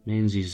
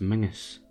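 First: The middle of the name has a z sound. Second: The middle of the name has an ng sound. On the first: This follows the spelling. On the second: This is the actual pronunciation.

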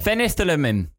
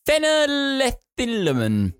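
First: The word is said smoothly and confidently. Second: The word is said hesitantly and stumblingly. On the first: The speaker calls it right. "Say it with confidence" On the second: The speaker calls it wrong. "You really butchered that one"

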